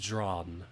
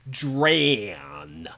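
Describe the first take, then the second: First: The name is said in a plain, neutral tone. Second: The name is said in a rude, contemptuous tone. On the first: The speaker calls it wrong. "Why did I say it like that?" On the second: The speaker calls it right. "I gotta say it impolitely because I hate him"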